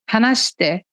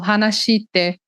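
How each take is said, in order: First: The vowel after sh is nearly silent. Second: The vowel after sh is clearly voiced. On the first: The speaker calls it right. "fica sh" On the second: The speaker calls it wrong. "Eu não falo, por exemplo, hanashite"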